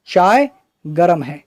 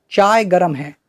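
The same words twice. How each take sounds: First: Slow deliberate example. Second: Said in the usual way. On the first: Shown as a demonstration. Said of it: "कहते हैं नहीं कहते हैं?". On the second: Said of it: "जैसे हम कहते हैं".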